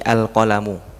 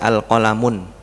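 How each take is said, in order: First: The word ends on a vowel, no n. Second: The word ends with an added n sound. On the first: The speaker calls it right. "Jadi al-qalamu" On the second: The speaker calls it wrong. "Boleh nggak Anda baca al-qalamun? Tidak boleh"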